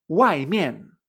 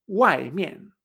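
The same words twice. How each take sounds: First: "Wai mian" with two sharp falling tones. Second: "wai mian" again, both syllables falling; repeated model. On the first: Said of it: "también utiliza esta combinación de tonos, la cuatro cuatro". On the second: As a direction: echo wai mian with two falls. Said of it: "la cuatro cuatro". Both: Shown as a demonstration.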